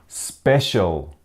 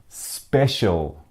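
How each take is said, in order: The two takes are said the same way.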